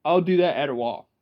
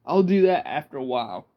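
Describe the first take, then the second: First: "at a while" run together as "adder wahl"; quick country "at a while" for "after a while". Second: Said in the usual way. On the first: Shown as a demonstration. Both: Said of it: "Rednecks will say".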